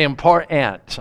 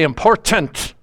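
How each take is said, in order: First: The middle t is dropped, sounding like 'a poor aunt'. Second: The middle t is clearly and fully pronounced. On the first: The speaker calls it wrong. "I don't say important" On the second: The speaker calls it right. "I say important"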